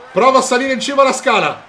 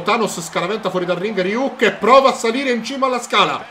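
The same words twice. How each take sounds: First: Louder, faster excited call; excited shout. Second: Said in the usual way. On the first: Real, not acted. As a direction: shout it as the action builds. (grido eccitato)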